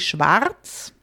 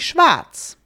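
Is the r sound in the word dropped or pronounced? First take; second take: pronounced; dropped. First: The r sound is clearly pronounced. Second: The r is dropped and the a lengthened. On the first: This is the careful standard form. "the really proper way of saying it" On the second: This is the everyday form common in the south and Austria. "the usual way you will hear many people say it"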